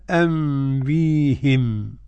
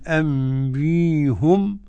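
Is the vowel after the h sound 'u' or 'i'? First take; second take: i; u. First: The h is followed by an i vowel. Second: The h is followed by an u vowel. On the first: "وكسر" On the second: "ضم الهاء"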